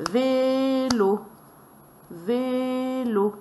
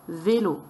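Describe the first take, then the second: First: "Vélo" chanted high, first syllable held long; "Vélo" as two long, raised beats; scanned syllables. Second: Said in the usual way. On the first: Shown as a demonstration. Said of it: "on va scander les syllabes".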